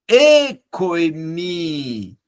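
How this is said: It is said with warm, emotional feeling. The speaker calls it right. "coloca uma expressão sentimental na silabificação"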